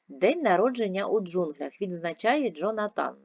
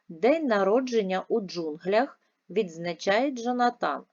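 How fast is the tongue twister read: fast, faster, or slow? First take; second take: faster; fast. First: It is read at the quickest pace. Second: It is read at a quicker pace. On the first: "Ще раз, швидше" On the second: "Швидше, читаємо разом"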